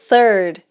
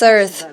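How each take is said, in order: First: It begins with the tongue between the teeth. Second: It begins with a hissing S-like sound. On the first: "Que é o som da língua entre os dentes" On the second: "Ele fala com som de S, na verdade"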